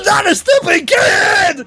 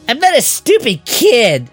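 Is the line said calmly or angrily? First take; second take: angrily; calmly. First: It is shouted angrily, like a tantrum. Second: It is read calmly, without anger.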